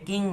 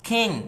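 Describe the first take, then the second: First: The first consonant is a plain unaspirated k. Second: The first consonant is an aspirated kh. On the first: The speaker calls it wrong. "এটাকে কিং বলা যাবে না" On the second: The speaker calls it right. "বলতে হবে কিং"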